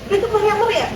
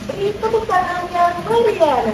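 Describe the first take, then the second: First: The phrase is rushed out quickly. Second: The phrase is said slowly, syllable by syllable. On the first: The speaker calls it wrong. "Kalau kecepatan jadi" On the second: The speaker calls it right. "Padahal itu kalau dia"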